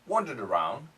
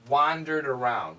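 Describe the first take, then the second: First: It is said in a British or Australian accent. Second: It is said in an American accent. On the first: "I don't know if this is Australian or British accent" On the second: "the American pronunciation"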